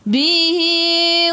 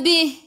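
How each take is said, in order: First: The word ends with a lengthened i vowel. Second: The word ends on a bare h sound. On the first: The reading continues into the next word. "Kalau nak sambung kat sini dia jadi maksilah qasirah baca dua harakat" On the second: The reading stops after this word. "boleh berhenti kat sini"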